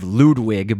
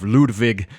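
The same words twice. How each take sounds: First: The name is said with English sounds. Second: The name is said with German sounds. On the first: This is how the cartoon says it. "They actually call him, I believe, Ludwig" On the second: This is the original German form. "I sort of say it like the actual German, you know, pronunciation of Ludwig"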